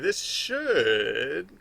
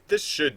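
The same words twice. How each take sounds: First: The word should is said in a hedging, doubtful tone. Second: The word should is said in a flat, certain tone. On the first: It is expected but might not happen. The speaker calls it right. "Like the intonation of should" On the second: It will definitely happen. The speaker calls it wrong. "I don't say this should do this"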